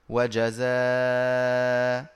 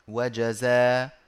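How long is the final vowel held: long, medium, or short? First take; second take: medium; short. First: The final vowel is held moderately, about four counts. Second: The final vowel is held briefly, about two counts. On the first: "والتوسط" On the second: "مع القصر"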